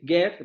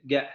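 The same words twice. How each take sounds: First: Said in the usual way. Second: "get" ending in a glottal stop, no t. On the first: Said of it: "en lugar de decir get". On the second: Shown as a demonstration. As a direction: stop "get" in the throat instead of a t. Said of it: "van a decir get". ("get" terminado en cierre glotal, sin t)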